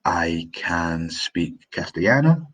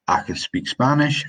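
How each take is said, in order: First: Said in the usual way. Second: Quicker Scots accent with reduced "can". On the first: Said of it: "For example, I say". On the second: Shown as a demonstration. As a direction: Scots lilt, "can" kept short before "speak". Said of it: "In Scots, we say".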